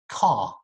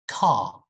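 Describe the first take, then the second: First: The final r is silent, ending on an open ah. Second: The same.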